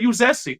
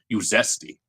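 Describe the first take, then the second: First: It is said in a friendly, upbeat tone. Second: It is said in a mean, falling tone. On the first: It is a harmless compliment. The speaker calls it right. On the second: It is an insult meant to provoke. The speaker calls it wrong.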